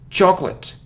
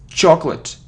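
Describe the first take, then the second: No difference in how they are said.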